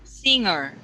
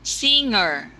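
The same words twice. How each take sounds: The two takes are said the same way.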